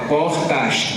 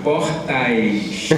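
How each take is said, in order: First: The last syllable has a plain vowel. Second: The last syllable has an 'ai' diphthong. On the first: The speaker calls it wrong. "A gente quando imita carioca esquece o ditongo" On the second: The speaker calls it right. "Não, é portais"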